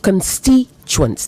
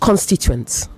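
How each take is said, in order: First: The stress falls on the second syllable. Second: The stress falls on a syllable other than the second. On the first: The speaker calls it right. "The stress is on the second syllable" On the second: The speaker calls it wrong. "not constituents"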